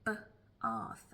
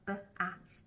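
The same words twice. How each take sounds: First: It is said with a Southern London accent. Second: It is said with a Northern or American accent.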